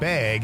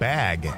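First: It is said with a Wisconsin accent. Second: It is said with a standard accent.

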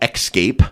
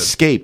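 First: The first syllable has a KS sound. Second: The first syllable has a plain S sound. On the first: The speaker calls it wrong. "not escape. / people use X's instead of S's" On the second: The speaker calls it right.

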